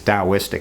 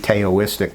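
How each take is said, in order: First: The word begins with a D sound. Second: The word begins with a T sound. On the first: The speaker calls it right. "as though there were a D there" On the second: The speaker calls it wrong. "It looks like it should be Taoistic, but hardly anyone ever says that"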